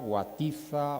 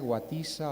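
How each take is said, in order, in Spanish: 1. La z se pronuncia como el sonido th. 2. La z se pronuncia como el sonido s. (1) "como los acabo de pronunciar, con Z" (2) "la pronunciación canaria"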